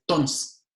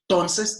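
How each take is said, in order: First: The word is cut to a single syllable. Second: The word is said with all its syllables. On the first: "Ya es una sola sílaba" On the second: "en lugar de decir entonces"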